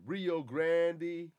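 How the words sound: It is said with an English-style pronunciation. "They say Rio Grande ... it's in an English way"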